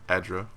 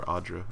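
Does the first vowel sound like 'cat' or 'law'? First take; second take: cat; law. First: The first vowel sounds like the 'a' in cat. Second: The first vowel sounds like the 'aw' in law. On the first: This is the speaker's own way of saying it. "I'm going to keep pronouncing it Adra" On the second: This is how everyone else says it. "as everyone keeps calling it"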